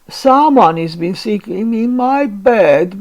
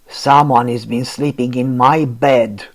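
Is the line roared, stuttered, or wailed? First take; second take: wailed; roared. First: It is wailed in Mama Bear's voice. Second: It is roared loudly in Papa Bear's voice.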